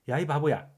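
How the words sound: It is said in a light, scolding tone. The speaker is lightly telling someone off. "가볍게 야단치려는 의도였죠"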